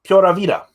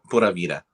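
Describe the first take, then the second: First: "Pura Vida" tried as PYOR-ah VEE-da, a bit louder; attempted Spanish accent. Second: "Pura Vida" as POO-ra VEE-da, Spanish vowels; correct Spanish. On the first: Host repeats after his partner: "Pura Vida" as PYOR-ah VEE-da, Spanish-ish. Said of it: "The, the accent". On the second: Partner models it for the host: "Pura Vida" as POO-ra VEE-da. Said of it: "Put, uh, Pura". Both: Shown as a demonstration.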